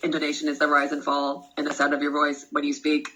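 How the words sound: The pitch stays flat like a robot. The speaker calls it wrong.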